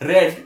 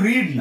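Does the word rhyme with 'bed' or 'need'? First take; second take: bed; need. First: The vowel is short, like in 'bed'. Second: The vowel is long, like in 'need'. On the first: It is the past participle form of the verb. The speaker calls it right. "উচ্চারণটা রেড কিন্তু স্পেলিংটা same" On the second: It is the present form of the verb. The speaker calls it wrong. "এখানে এটা কিন্তু রিড না"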